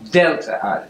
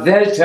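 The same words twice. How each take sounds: First: Delta is said with an English pronunciation. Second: Delta is said with a modern Greek pronunciation. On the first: This is how the airline name is said. The speaker calls it wrong. "not Delta Airlines" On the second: This is how Greeks say it today. The speaker calls it right. "So it's now Delta"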